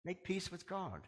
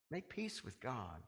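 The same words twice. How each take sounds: First: Said in the usual way. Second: Softer repeat. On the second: Real, not acted. Preacher urging the congregation, soft slow plea. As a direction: drop to an intimate plea on Make peace with God.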